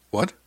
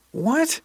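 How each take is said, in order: First: Said in the usual way. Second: Very high, loud, rising disbelief; incredulous. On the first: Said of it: "I asked". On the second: A narrator's reading. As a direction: squeak it out in sheer disbelief. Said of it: "I asked a third time".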